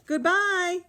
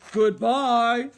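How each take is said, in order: First: It is said in a middle-sized voice. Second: It is said in a big, gruff voice.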